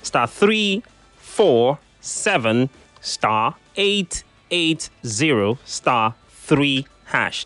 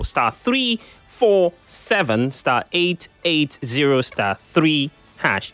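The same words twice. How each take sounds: First: The code is said more slowly. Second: The code is said quickly.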